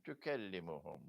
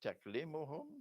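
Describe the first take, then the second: First: "tukallimuhum" as tu-KAL-li-mu-hum, quicker; second option, tukallimuhum. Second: "Taklimuhum" as tak-LEE-mu-hum, rising in question; first option, taklimuhum. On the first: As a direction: answer with "tukallimuhum", vowel after k and doubled l. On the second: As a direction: offer "Taklimuhum" with k straight onto l, pitch lifting. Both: Shown as a demonstration. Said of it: "either this or that".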